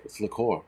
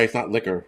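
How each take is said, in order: First: Liqueur said li-CORE, stress at the end; "liqueur" as lih-KOR, a touch lower and softer. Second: Liquor said the plain way, LICK-er; casual "liquor" with the stress up front. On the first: Correcting the chat, says liqueur as li-CORE. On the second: Correcting a chat guess, says liquor as LICK-er. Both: Shown as a demonstration.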